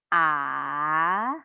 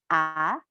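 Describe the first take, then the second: First: The pitch dips down then rises, drawn out. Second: The pitch rises slightly and stops. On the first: "seperti naik gunung ... diperpanjang" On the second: "Nada kedua itu naik sedikit"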